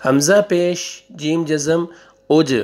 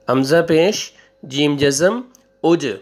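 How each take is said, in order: Both takes have the same delivery.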